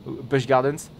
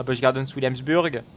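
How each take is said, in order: First: "Busch Gardens" slow, drawn out in a hammed-up franchouillard French accent; exaggerated French accent. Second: Busch Gardens Williamsburg in a thick franchouillard French accent, every English sound made French; heavy French accent. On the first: Streamer repeats the park name to viewers, slow, in a hammed-up franchouillard French accent. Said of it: "mon accent franchouillard". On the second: Streamer jokingly says the park name to viewers in a franchouillard French accent. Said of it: "j'ai bien pris mon accent franchouillard". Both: Shown as a demonstration.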